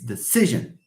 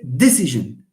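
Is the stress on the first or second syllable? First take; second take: second; first. First: The stress is on the second syllable. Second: The stress is on the first syllable. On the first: The speaker calls it right. "In English, no, it's penultimate... No, it's decision" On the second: The speaker calls it wrong. "we don't say decision. This comes from French... it's on the anti-penultimate"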